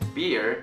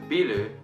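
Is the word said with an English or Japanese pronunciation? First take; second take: English; Japanese. First: It is said the English way, one syllable. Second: It is said the Japanese loanword way, two syllables. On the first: "it's beer" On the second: "in Japanese, people call this thing biru"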